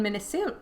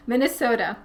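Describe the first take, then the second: First: Minnesota slipping out in a light Minnesota accent, o drawn long. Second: Said in the usual way. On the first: Real, not acted. Reading a viewer's question, a slip of Minnesota accent. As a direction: let a touch of Minnesota accent color Minnesota. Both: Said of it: "I just said that with a Minnesota accent".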